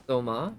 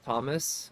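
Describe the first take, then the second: First: Toma ending on an open vowel, no S; French "Toma", silent final S; French pronunciation. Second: Thomas with the final S sounded; "Thomas", ending on a clear S; English pronunciation. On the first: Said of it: "it'll be pronounced Toma". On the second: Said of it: "instead of Thomas". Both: Shown as a demonstration.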